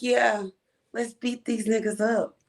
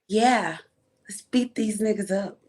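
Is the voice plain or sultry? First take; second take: plain; sultry. First: It is read in a plain voice. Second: It is read in a sultry voice.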